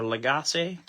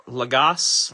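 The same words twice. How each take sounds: First: Lagasse as luh-GAH-say; Lagasse offered questioningly as luh-GAH-say; alternative pronunciation. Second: Lagasse as luh-GAHSS; Lagasse tried slowly as luh-GAHSS, rising; uncertain pronunciation. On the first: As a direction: say Lagasse in three syllables, ending in -say. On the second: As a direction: say Lagasse in two syllables, luh-GAHSS, silent final E. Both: Real, not acted. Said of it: "not sure how you pronounce his name".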